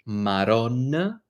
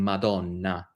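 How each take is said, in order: First: The middle consonant is an R sound. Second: The middle consonant is a D sound. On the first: This is the Neapolitan way of saying it. "very common to turn your D's into R's" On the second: This is the standard Italian way of saying it. "when you're saying Madonna"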